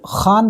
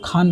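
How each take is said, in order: First: The first sound is rough, from the throat. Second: The first sound is a plain aspirated k. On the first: The speaker calls it right. "जिसको खान बोलता है बोलना होता है" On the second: The speaker calls it wrong. "उसको लोग खान बोलते हैं"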